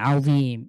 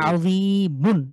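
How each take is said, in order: First: The long vowel is stretched and the ending dropped. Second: The vowel is short and the word ends -un. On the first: The reader stops at this word. "ওয়াকফ করে করেন তাহলে টানবো আমরা যিম এ টানবো। এখানে তিন আলিফ টানবেন।" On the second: The reading continues without stopping. "টানার কোনো ভাবও আসবে না। খুব দ্রুত"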